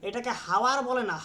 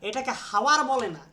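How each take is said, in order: The two takes are said the same way.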